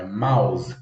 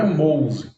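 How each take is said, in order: First: "mouse" said as MAUZ, rhyming with house; correct pronunciation. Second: "mouse" said as MOWZ, a closed o sound; mock the mistake: "mouse" as MOWZ; wrong pronunciation. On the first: Teacher correcting students: "mouse" as MAUZ, the right way. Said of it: "A pronúncia de mouse, olha lá, é". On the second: Teacher showing students the wrong way: "mouse" said as MOWZ. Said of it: "Não é mouse". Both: Shown as a demonstration.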